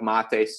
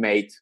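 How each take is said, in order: First: It sounds unlike English, as a foreign name. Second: It sounds like the English word mate. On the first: It is the speaker's own first name. The speaker calls it right. "instead of mate" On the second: It is the casual word for a friend. The speaker calls it wrong. "they usually say, "How you doing, mate?""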